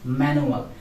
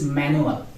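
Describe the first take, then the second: The two takes are said the same way.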